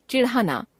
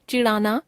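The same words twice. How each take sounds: First: चिढ़ाना with aspirated flap ढ़, falling; चिढ़ाना as chiṛhana, closing fall. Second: चिढ़ाना said as चिड़ाना, rising; चिढ़ाना without aspiration, end lifted. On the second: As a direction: drop the breath of ढ़ in चिढ़ाना. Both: Shown as a demonstration. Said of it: "ड़ और ढ़ की अशुद्धियां".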